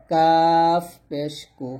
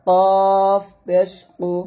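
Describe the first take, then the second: First: Slow, light কাফ, then thin কু; thin kaf. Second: Slow, thick কফ, then heavy কু; heavy qaf. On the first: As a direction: stretch কাফ with an open 'aa'. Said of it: "কাফ পাতলা হবে". (কাফ পাতলা করে টেনে) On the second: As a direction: stretch কফ full and rounded. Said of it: "কফটা মোটা হবে". (কফ মোটা করে টেনে) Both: Shown as a demonstration.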